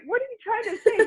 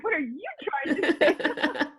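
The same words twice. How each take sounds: First: Said in the usual way. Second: Laughing mock Aussie accent from Perth; imitating Australian accent. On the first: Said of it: "I'm like". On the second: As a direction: parrot the boss in a playful Australian accent. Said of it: "And he had this accent".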